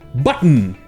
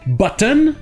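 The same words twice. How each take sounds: First: The middle consonant is a glottal stop. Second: The middle consonant is a clear t sound. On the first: "en fait, ça se prononce en général button ... C'est ça le glottal stop" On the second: "on aurait envie de le prononcer button"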